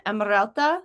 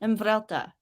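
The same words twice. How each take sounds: First: "Emrelta" tried as a question, rising at the end; unsure pronunciation. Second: "Emrelta" repeated with a v before the r, falling; corrected pronunciation. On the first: Host checks a viewer's name, unsure rising pronunciation of "Emrelta". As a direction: try "Emrelta" with an r-led middle, asking. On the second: Host repeats the corrected name, "Emrelta" as a falling statement. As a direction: say "Emrelta" as em-VREL-ta, settled. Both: Real, not acted. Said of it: "still learning how to pronounce your name".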